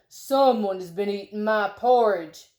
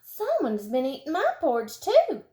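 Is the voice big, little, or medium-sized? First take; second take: big; medium. First: It is said in a great big voice. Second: It is said in a medium-sized voice.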